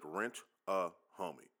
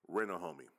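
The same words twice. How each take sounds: First: It is said slowly and drawn out. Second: It is said at normal, quicker speed.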